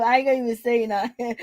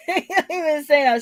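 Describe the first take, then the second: First: Said in the usual way. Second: Laughing. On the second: Real, not acted.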